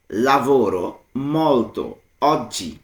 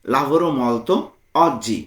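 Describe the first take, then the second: First: "Lavoro ... molto ... oggi", a pause between words. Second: Said in the usual way. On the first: Shown as a demonstration. Teacher translating working a lot today, word by word. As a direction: dictate "Lavoro molto oggi" one separate word at a time. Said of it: "ভেঙে ভেঙে".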